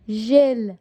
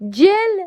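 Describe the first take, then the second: First: The word begins with a soft 'zh' sound. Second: The word begins with a hard 'j' sound. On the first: The speaker calls it right. "بگو ژل" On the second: The speaker calls it wrong. "نه نه"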